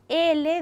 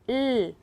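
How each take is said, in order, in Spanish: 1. La letra se dice por su nombre. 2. La letra se dice por su sonido. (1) "Si es la L" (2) "decimos L. Siempre el sonido"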